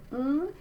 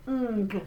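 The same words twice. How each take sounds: First: "ng" hummed with no g after it; soft ng. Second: "ng" closed with a hard g pop; hard G mistake. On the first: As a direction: hum "ng" and release without a g. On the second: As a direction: add a hard g after "ng", as the mistake. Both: Shown as a demonstration. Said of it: "I don't put the hard G sound".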